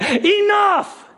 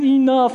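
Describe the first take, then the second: First: It is said forcefully, with conviction. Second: It is said timidly and hesitantly.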